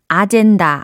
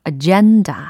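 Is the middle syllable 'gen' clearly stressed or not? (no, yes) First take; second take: no; yes. First: The syllables sound even, with no strong stress. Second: The middle syllable 'gen' is louder and stressed. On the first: The speaker calls it wrong. "아젠다 아니고요" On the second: The speaker calls it right. "이 gen 부분이 좀 더 크게 발음이 된다"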